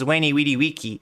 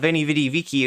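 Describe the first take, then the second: First: Each word begins with a W sound. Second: Each word begins with a V sound. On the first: "he pronounced his V's like W" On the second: "so it wasn't uh"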